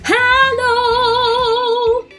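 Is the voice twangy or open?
open. The voice sounds open and round. "Sometimes we want more of an open tone"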